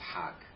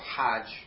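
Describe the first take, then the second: First: The word ends with a hard G sound. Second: The word ends with a soft J sound. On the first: This is the Egyptian Arabic form. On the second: This is the standard Arabic form.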